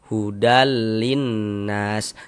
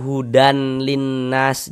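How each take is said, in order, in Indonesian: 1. Bunyi n melebur ke l. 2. Bunyi n tetap ada sebelum l. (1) "Bunyi tanwinnya dimasukkan ke huruf lam, melebur ke huruf lam" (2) "Jangan dibaca hudan linnas, jangan"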